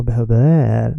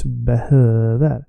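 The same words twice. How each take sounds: First: Behöver with the last syllable stretched; wrong stress on behöver. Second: Behöver with a long, stressed middle syllable; correct stress on behöver. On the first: Teacher showing a second mistake, behöver stressed on VER. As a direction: drag out VER at the end of behöver. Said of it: "It's not behöver or behöver". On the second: Teacher correcting learners, behöver stressed on HÖ. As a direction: stretch the Ö in behöver. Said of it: "no, it's behöver". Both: Shown as a demonstration.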